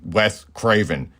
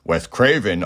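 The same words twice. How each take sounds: First: "Wes Craven" said slowly and deliberately; corrective emphasis. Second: Said in the usual way. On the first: Real, not acted. Host fixing his Wes Anderson slip, slow deliberate "Wes Craven".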